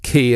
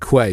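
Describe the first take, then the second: First: The word is said as key. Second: The word is said as kway. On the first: The speaker calls it right. "but obviously it's a, it's key" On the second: The speaker calls it wrong. "get it wrong. They pronounce it quay"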